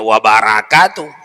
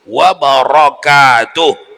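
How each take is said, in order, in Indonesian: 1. Bunyi r-nya ringan dan tipis. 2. Bunyi r-nya berat dan penuh. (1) "tak boleh dibacanya" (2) "mesti wabarakatuh ro"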